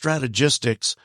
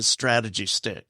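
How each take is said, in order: First: The name ends with a 'jistics' sound. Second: The name ends with a separate 'stick' sound. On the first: The speaker calls it right. "it's pronounced Strategistics" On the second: The speaker calls it wrong. "everybody seems to want to pronounce it Strategy Stick"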